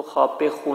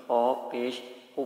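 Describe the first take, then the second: First: "خا پہ خو" with a loose "پہ" instead of "پیش"; wrong reading. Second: "خا پیش خو" with a clear "پیش", slightly slowed; the right way, "خا پیش خو" clearly articulated; correct reading. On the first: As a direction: read "خا پہ خو" the wrong way on purpose. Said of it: "نہیں پڑھنا". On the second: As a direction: say "خا پیش خو" carefully, stressing "خا". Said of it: "بلکہ ... پڑھنا ہے". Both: Shown as a demonstration.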